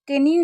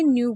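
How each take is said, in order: First: A K sound is heard at the start. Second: The word starts directly with an N sound. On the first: The speaker calls it wrong. "इसको हम कैन्यू नहीं पढ़ेंगे" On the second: The speaker calls it right. "न्यू पढ़ेंगे"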